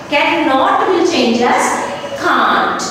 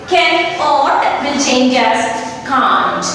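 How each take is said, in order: The two takes are said the same way.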